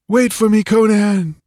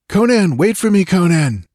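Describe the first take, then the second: First: High, loud desperate call. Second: High, loud distant call; calling from afar. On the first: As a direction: shout to him through the trees. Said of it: "The voice became more distinct". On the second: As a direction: call out across the forest. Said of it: "a voice called faintly to him". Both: A narrator's reading.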